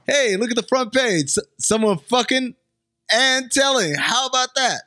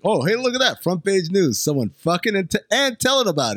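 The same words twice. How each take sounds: First: High, mock amazed reader; retry the gossip with more flair; hammed-up gawking reader; newspaper reader voice. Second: High, mock amazed reader; hammed-up gossiping reader; newspaper reader voice. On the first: Shown as a demonstration. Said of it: "let me try it again". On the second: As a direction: gawk at the headline. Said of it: "reading the paper is like".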